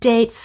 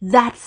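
First: The word begins with a hard 'd' sound. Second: The word begins with a soft 'th' sound. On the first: The speaker calls it wrong. "ก็ออกเสียงเพี้ยนไปนิดนึง" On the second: The speaker calls it right. "จาก"

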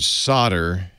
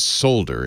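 First: The word is said the North American way. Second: The word is said the non-American way. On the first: "as I pronounce it" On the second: "in your neck of the woods"

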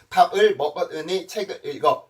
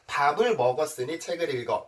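First: Each syllable is read separately, exactly as spelled. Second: Final consonants carry over into the next vowel. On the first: The speaker calls it wrong. "이렇게 읽으면 오히려 어색하고" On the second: The speaker calls it right. "이렇게 읽어야지 여러분들이 쉽게 이해할 수 있고"

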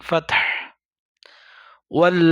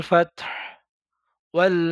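No difference in how they are said.

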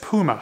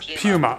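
First: Puma is said with an American pronunciation. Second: Puma is said with a non-American pronunciation. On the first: "here in the United States, people say it a bit differently" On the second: "Mark says Puma"

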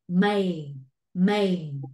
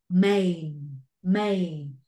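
The two takes are said the same way.

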